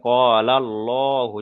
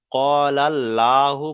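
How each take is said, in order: First: "কলাল্লাহু" slowly, with a long heavy "lo"; thick Allah. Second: "কলাল্লাহু" slowly, with a light, open "laa"; wrong thin Allah. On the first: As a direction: recite "Qaalal-lohu" drawn out and rounded. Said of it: "পুর করে পড়তে হবে". ("কলাল্লাহু" পুর করে, টেনে "কলাল্লোহু") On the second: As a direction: recite "Qaalal-laahu", L kept thin. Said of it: "পড়াটা বারিক হয়ে যাবে". ("কলাল্লাহু" বারিক করে, ভুল পাতলা "লা") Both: Shown as a demonstration.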